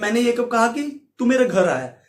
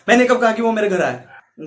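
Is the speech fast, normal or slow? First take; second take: normal; fast. First: The sentence is spoken at a normal speed. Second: The sentence is spoken quickly and rushed. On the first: "normal वे में बोलता हूं" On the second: "FPS को मैं कम कर दूंगा"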